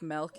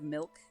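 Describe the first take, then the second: First: The vowel is shifted, northern Wisconsin style. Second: The vowel is plain and neutral.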